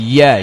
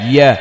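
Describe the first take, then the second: No difference in how they are said.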